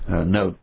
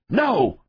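First: The word is soft and weak. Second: The word is loud and hard. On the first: The command lacks authority. The speaker calls it wrong. "You just don't say it like that" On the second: The command carries authority and must be obeyed. The speaker calls it right. "You say it very loud, you say it very hard"

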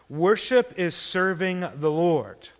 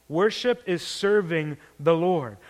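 No difference in how they are said.

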